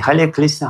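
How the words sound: It is said with a Chinese accent, r as l. "Китайцы по-китайски"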